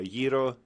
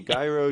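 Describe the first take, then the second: First: The word is said with a Greek pronunciation. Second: The word is said with an English pronunciation. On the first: "the Greek pronunciation" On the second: "you can say it anyway"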